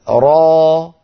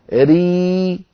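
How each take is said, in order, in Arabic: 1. الحركة فتحة مفتوحة خالصة 'a'. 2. الحركة ياء مدودة خالصة 'ee'. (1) "هذه ألف" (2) "هذه ياء"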